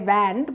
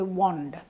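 First: The vowel sounds like the vowel in hand. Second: The vowel differs from the vowel in hand. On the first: The speaker calls it wrong. "Now you don't say wand" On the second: The speaker calls it right. "but you say wand"

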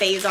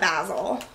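First: Basil is said the common American way. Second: Basil is said the English way. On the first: This is how most people say it. "Most people call it basil" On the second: This is the speaker's own English way of saying it. "I call it basil. It's like an English thing"

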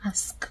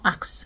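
First: The word is said with the s before the k. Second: The word is said with the k before the s. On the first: The speaker calls it right. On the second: The speaker calls it wrong.

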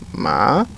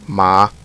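First: The pitch rises like a question. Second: The pitch stays level through the syllable. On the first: "it's like a question. it's higher" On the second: "a flat tone"

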